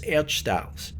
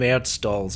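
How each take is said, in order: First: The word is pronounced the German way. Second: The word is pronounced the English way.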